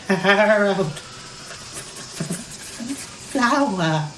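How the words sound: The voice shivers as if freezing cold. The person is freezing at the North Pole. "in this voice from if I were feeling very cold"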